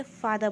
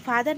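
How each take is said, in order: First: फादर ending in "-də", no r sound; फादर with the r dropped; silent r. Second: फादर with the r rolled at the end; फादर ending in a sounded "r"; wrong pronunciation. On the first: Teacher models the correct फादर, r left silent. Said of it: "आर यहाँ पर silent रहेगा". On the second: Teacher shows students the wrong फादर with the r sounded. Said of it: "फादर नहीं बोलेंगे". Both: Shown as a demonstration.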